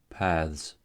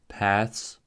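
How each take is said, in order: First: The ending is voiced, like th plus z. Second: The ending is voiceless, like th plus s. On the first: "the voiced consonant" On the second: "the voiceless consonant cluster ths"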